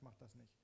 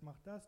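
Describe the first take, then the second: First: Inner voice holding back, lower and softer; the counter-voice, Mach das nicht, dropped low and quiet; other inner voice refusing. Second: Inner voice pushing, a touch higher and louder; the voice that says go, mach das, pitched up and pushed; one inner voice urging. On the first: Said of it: "die andere Stimme hat gesagt". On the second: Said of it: "Die eine Stimme hat gesagt". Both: Retold or imitated.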